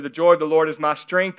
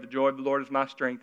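First: A son reading with devotion, sincere. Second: A slave reciting a chore, mildly bored; bored duty reading. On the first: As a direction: read it earnest, with a lift at the end. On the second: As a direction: read it flat and dutiful, softer. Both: Shown as a demonstration. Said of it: "See the difference?".

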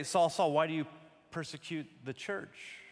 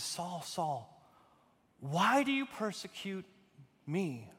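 First: Said in the usual way. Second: Pause, then "me" set apart on its own; slight break before a weighted "me"; stress on ME. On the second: Shown as a demonstration. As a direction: hold back before "me" so it lands alone. True reading, pointed last word.

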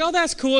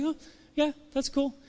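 First: High, bright-eyed oh that's cool; mock impressed. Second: A high, soft, indifferent huh yeah that's cool; unimpressed. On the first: Pastor recalls first seeing the challenge, impressed. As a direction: sound genuinely impressed at first. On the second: Retold or imitated. Friend shrugging off your big news, indifferent. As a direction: brush it off like it's nothing.

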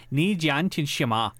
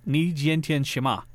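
First: Put-on corrective, slower Chinese-accented phrase. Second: Put-on learner's American-accented Chinese; wrong accent in Chinese. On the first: Restaurant woman correcting the learner, Chinese accent. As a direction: say "Ni jian tian shima" slowly with Chinese tones. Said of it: "accent. She was like". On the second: Asking how are you today, American-accented Chinese. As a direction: say "Ni jian tian shima" slowly, in an American accent. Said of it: "I wasn't saying it with the right accent".

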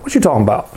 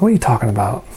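First: "What you talking about?" with the "are" dropped, rural Georgia style; lightly voiced rural Georgia janitor saying "What you talking about?". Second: Said in the usual way. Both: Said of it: "Actually, he said it more like".

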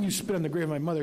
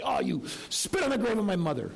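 First: Said in the usual way. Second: Lightly voiced haggling vendor, mock outrage; indignant market vendor. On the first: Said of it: "And he doesn't mean". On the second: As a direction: play the offended seller, hammed up a touch. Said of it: "And the guy might say".

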